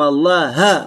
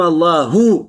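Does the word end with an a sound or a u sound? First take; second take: a sound; u sound. First: The word ends with an a vowel. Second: The word ends with a u vowel. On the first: Moses is the one who spoke. The speaker calls it wrong. "здесь «фатха» в слове «Аллах»" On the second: God is the one who spoke. The speaker calls it right. "Здесь не «дамма» в слове «Аллах»"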